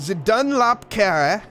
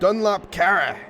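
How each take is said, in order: First: Slow, raised, French-sounding flourish; French accent. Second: Higher, emphatic German-style delivery; angry German pronunciation. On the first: Commentator testing a corner's name, exaggerated French accent. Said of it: "it sounded French 'cause I made it sound French". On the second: Commentator rehearsing the Dunlop corner's name, mock-angry German accent. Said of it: "when I said it angry, it was good". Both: Shown as a demonstration.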